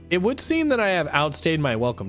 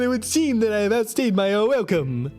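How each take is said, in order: First: It is said in a normal speaking voice. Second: It is said in a put-on vampire voice.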